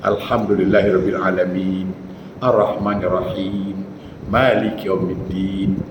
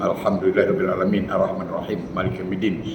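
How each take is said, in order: First: It is recited slowly with long vowels held. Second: It is recited quickly with long vowels cut short. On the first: The speaker calls it right. "Ada ruangan di situ" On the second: The speaker calls it wrong. "Bacaannya betul, kalimatnya, tapi ... tajwidnya takkan"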